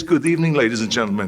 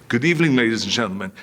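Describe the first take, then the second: First: Lightly voiced Reg Park giving "Good evening" like an emcee; announcer greeting. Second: Fast, hurried "Good evening, ladies and gentlemen" run together; rushed repeat. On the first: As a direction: open the show for the crowd. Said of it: "he says, says". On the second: Retold or imitated. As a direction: blurt the cue out quickly. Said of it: "And I said".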